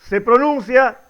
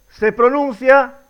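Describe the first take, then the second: The two takes are said the same way.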